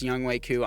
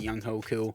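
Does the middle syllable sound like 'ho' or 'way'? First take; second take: way; ho. First: The middle syllable sounds like 'way'. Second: The middle syllable sounds like 'ho'. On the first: The speaker calls it right. "I know it's pronounced Young Wei Koo" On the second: The speaker calls it wrong. "continue to pronounce it Young Ho Koo for uh, kicks and giggles"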